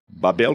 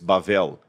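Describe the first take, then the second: First: The middle consonant is a B sound. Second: The middle consonant is a V sound. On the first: This is the Portuguese form of the name. "como a gente fala em português" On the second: This is the Hebrew form, meaning confusion. "em hebraico, Bavel"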